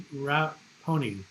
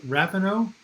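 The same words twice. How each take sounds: First: "Raponi" said slowly, syllable by syllable, ra-PO-ni; careful pronunciation. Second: "Rapinoe" said as a rising question, ra-pi-NOH; unsure pronunciation. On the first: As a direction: sound out "Raponi" slowly and deliberately. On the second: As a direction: try out "Rapinoe" as a guess, voice going up. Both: Shown as a demonstration. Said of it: "how do you pronounce".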